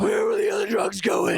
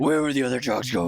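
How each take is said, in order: First: High, gravelly Batman growl impression. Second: Batman voice. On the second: Retold or imitated. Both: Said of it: "yours is way better".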